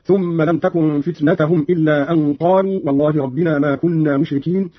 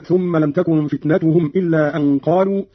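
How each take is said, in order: First: فتنتهم said "fitnatahum"; a vowel after the t in فتنتهم; accusative fitna. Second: Said in the usual way. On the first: Shown as a demonstration. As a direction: put a fatha on the last t of فتنتهم. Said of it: "فتنة بالنصب".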